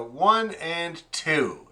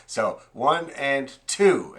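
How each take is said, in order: First: Slow, deliberate counting; teacher counting the beat slowly; slow demo count. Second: Slow count with a push on two; counting with the accent on two. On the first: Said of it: "there's the big accent". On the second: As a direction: lean into the two like a bow stroke. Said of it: "that's gonna be a down bow". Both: Shown as a demonstration.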